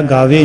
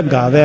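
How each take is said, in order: First: ਗਾਵੇ ending in a closed "vay"; e-ending misreading. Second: ਗਾਵੈ ending in an open "vae"; open final vowel. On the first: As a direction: narrow the last vowel of ਗਾਵੇ. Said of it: "ਨਹੀਂ ਪੜ੍ਹਨਾ". (ਗਾਵੇ, ਇੱਕ ਲਾਂ ਨਾਲ) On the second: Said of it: "ਇਸੇ ਤਰ੍ਹਾਂ ਹੀ". (ਗਾਵੈ, ਦੁਲਾਵਾਂ ਨਾਲ) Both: Shown as a demonstration.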